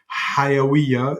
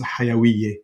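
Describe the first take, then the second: First: It is said in Standard Arabic pronunciation. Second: It is said in Lebanese dialect pronunciation. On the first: "instead of" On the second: "the pronunciation becomes a little bit different"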